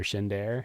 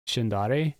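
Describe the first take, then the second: First: Shindare in two syllables, shin-DARE. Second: Shindare in three syllables, shin-DAH-ray. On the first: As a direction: say Shindare so it ends like the word "dare". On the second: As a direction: say Shindare with an "ah" in the middle and a final "ee" or "ay" sound. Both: Shown as a demonstration. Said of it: "however you wanna say his name".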